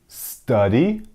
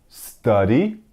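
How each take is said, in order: Both takes have the same delivery.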